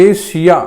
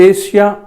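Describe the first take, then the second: The two takes are said the same way.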